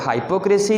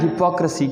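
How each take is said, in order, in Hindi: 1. पहला स्वर 'high' जैसा सुनाई देता है। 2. पहला स्वर 'hip' जैसा सुनाई देता है। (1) "हाइपोक्रेसी नहीं कहना" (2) "हिपोक्रेसी कहना"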